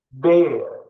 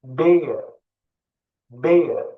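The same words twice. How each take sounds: First: Said in the usual way. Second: Bear, hold the "ee" sound; stretched vowel. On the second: Shown as a demonstration. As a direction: bear with its vowel drawn out long. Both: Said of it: "Bakın uzatıyorum".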